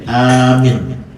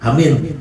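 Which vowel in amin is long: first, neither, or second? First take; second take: first; neither. First: The first vowel is long, the second short. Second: Both vowels are short. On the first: "ada panjang A-nya, minnya pendek" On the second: "kalau pendek semua"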